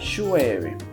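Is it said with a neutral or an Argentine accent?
Argentine. It is said with an Argentine accent.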